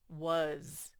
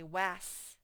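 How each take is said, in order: First: The vowel is sounded like uh, ending in z. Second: The vowel is sounded like the a in cat. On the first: The speaker calls it right. "it says was" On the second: The speaker calls it wrong. "if you sounded it out normally, it would say was"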